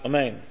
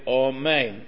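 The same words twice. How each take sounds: First: The first vowel is clipped and almost swallowed. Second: The first vowel is full and clearly pronounced. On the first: The speaker calls it wrong. "where the aleph would almost be swallowed up" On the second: The speaker calls it right. "you have to say amen"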